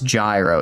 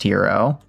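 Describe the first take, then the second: First: The word is said like 'gyro'. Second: The word is said like 'hero'. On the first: The speaker calls it wrong. "I'm like, it's gyro" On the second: The speaker calls it right. "It's pronounced hero"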